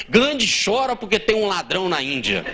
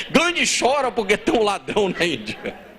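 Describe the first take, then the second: First: Quoting the headline through a laugh. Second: Said in the usual way. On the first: Retold or imitated. Retelling the news to the congregation, laughing. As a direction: read the headline while laughing. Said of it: "Aí os jornais colocaram". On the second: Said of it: "Jornal só".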